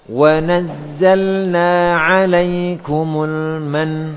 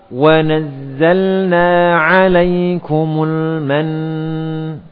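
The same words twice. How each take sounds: First: The final nn stops short without a nasal hum. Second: The final nn ends with a long nasal hum. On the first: The speaker calls it wrong. "Contohnya seperti ini yang kurang tepat" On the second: The speaker calls it right. "diakhiri gunnah akmal"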